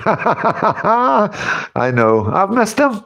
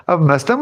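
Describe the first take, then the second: First: Lovesick sigh, pitched high; hammed-up longing, higher; mock wistful. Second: Said in the usual way. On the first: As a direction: play it up as if pining for him.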